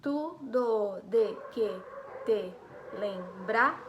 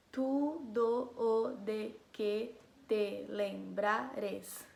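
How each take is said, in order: First: Slow separate beats, "do" as one joined syllable, louder; poetic syllable count. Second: Each syllable drawn out separately, "do" and "o" kept apart; syllable-by-syllable count. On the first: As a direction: count out "tu, do, de, que, te, lembrar", stopping on a stretched "brar". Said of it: "vou fazer essa aqui com vocês". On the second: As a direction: count out "tu, do, o, de, que, te, lembrares" slowly, every syllable alone. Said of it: "Eu sei contar as sílabas". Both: Shown as a demonstration.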